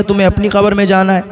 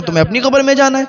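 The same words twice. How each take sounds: First: A touch of teasing in the wife's retort; light mockery. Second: Pitched up and quick, scoffing at him; higher, faster mockery. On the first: Wife brushing off her husband's call to prayer, mildly mocking. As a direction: tease the husband, lightly dismissive. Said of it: "میں مذاق کرتی تھی". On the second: Wife mocking her husband's nagging, higher and faster. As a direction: rattle it off high and dismissive. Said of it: "مذاق بناتی تھی، ہنستی تھی".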